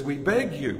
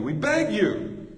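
First: Said in the usual way. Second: "we beg you" pitched higher and slowed, pleading hard; impassioned, slow, high "we beg you"; passionate plea. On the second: Shown as a demonstration. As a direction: beg them with real passion, stretching "beg". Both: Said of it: "Feel the passion".

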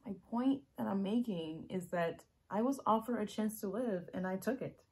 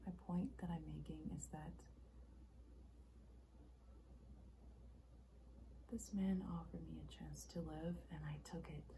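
First: Loud and insistent; urgent, full-voiced confession; emphatic explanation. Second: Soft, measured and restrained; understated confession; subdued explanation. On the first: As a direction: drive the point home forcefully. Acted monologue, emphatic second take. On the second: Acted. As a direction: explain it quietly, with pauses. Acted monologue, subdued first take.

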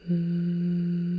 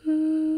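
First: "Mm" hummed low and steady; a low closed-mouth "Mm" hum. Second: "Mm" hummed much higher and louder; a high loud closed-mouth "Mm" hum. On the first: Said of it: "a bit of a humming noise". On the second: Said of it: "whether that humming noise is higher or lower". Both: Shown as a demonstration.

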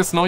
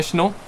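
First: Said in the usual way. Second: "snow" said with sh, as "shno"; Pakistani pronunciation. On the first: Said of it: "You don't say snow". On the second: Shown as a demonstration. Streamer contrasting the two ways, "snow" as "shno". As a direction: swap the s of "snow" for sh. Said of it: "you say snow".

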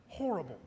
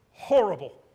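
First: Deflated. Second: Anguished cry. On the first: Repeating it, deflated. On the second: Telling wife the meeting failed. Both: Retold or imitated.

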